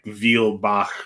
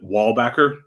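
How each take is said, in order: First: The name is said with German sounds. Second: The name is said with American English sounds. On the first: This is the original pronunciation of the name. The speaker calls it right. "that's not how it is actually pronounced. It's it's like Vielbach ... that excess Germany ness" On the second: The family changed the name's pronunciation to fit in. The speaker calls it wrong. "our family pronounces it Wallbacker, like a wall and a back"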